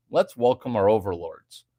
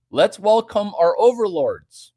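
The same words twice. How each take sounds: First: Dropped low and dry; deadpan it low; lower repeat. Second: Hammed-up grand welcome; mock proclamation, louder, higher. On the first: Acted. Streamer to chat, repeating the mock welcome lower. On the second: Streamer to chat, proclaiming a mock welcome loudly. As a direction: announce it like a herald.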